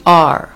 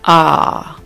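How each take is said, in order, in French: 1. La lettre est prononcée avec un accent américain. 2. La lettre est prononcée avec un accent britannique. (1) "avec mon accent américain, je dis R" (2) "avec l'accent anglais, c'est beaucoup plus facile"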